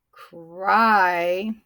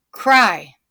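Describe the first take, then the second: First: Drawn out. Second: Snapped short. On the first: Teacher introducing the word to class, CRY drawn out. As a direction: CRY stretched slowly through the vowel. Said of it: "Oh, it's really short". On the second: Teacher snapping syllables with class, CRY short and punchy. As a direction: CRY in one quick, loud beat. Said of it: "Snap it with me". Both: Shown as a demonstration.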